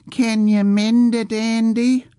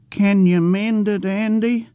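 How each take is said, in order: First: High, slow mocking copy of an old man's childish voice; mimicking childish voice. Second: Put-on high, pleading old man's voice, childlike; childish old man pleading. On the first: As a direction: parrot the old man's whine to tease him. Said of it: "repeated in the old man's childish voice". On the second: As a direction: ask like a worried simple old man.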